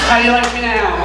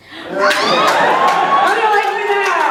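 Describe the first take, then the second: First: Put-on a child's smug taunt. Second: High, slow triumphant gloat. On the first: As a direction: gloat like a defiant toddler. Toddler's defiant taunt, acted. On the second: Retold or imitated. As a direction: rub it in, drawn out and smug. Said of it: "I went".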